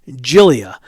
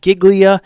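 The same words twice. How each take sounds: First: The first syllable sounds like 'Jill'. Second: The first syllable does not sound like 'Jill'. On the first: The speaker calls it right. "like Jill, J I L L, and then E" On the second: The speaker calls it wrong. "It's not Giglia"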